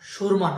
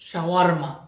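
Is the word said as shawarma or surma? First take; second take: surma; shawarma. First: The word is said as surma. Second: The word is said as shawarma. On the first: The speaker calls it wrong. "সুরমা নয়" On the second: The speaker calls it right. "এটার শুদ্ধ উচ্চারণ হচ্ছে শাওয়ারমা"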